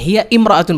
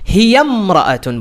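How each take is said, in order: First: The two words are separated by a glottal stop. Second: The two words run together without a glottal stop. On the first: The speaker calls it wrong. "তখন হিয়া ইমরাআতুন বলা যাবে না" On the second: The speaker calls it right. "হিয়ামরাআতুন বলতে হবে। ওই শুরুর যে হামজাটা আছে ওটা পড়ে যাবে"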